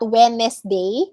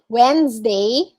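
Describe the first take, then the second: First: No z sound is heard in the middle. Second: A z sound is heard in the middle. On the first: The speaker calls it wrong. "not Wednesday, like some people pronounce it" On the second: The speaker calls it right. "parang may Z sound siya in the middle"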